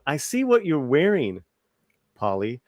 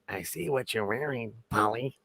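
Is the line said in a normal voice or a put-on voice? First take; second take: normal; put-on. First: It is read in a plain, normal voice. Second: It is said in a put-on character voice.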